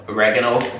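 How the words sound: It is said in an American accent.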